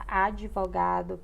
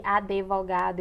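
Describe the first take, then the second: First: Advogado with no E after the D; correct pronunciation. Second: Advogado with an E slipped after the D; mispronunciation. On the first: Teacher giving the standard form, advogado pronounced as "adivogado". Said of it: "que é o correto". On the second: Teacher recalling the common error, advogado said as "adevogado". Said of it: "A gente falou de advogado". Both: Shown as a demonstration.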